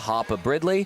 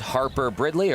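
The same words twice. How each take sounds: First: The name is said in an Australian accent. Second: The name is said in a non-Australian accent.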